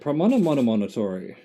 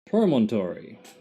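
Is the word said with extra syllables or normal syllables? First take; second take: extra; normal. First: The word has several extra repeated syllables. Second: The word has its normal number of syllables. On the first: The speaker calls it wrong. "I kept adding another syllable" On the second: The speaker calls it right. "It's promontory"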